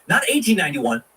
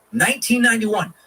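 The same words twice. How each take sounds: First: Said in the usual way. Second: "nineteen" punched higher, the rest falling off; stress on nineteen. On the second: Shown as a demonstration. Host correcting the century, stressing "nineteen" high. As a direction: hit "nineteen" hard and high to correct the date.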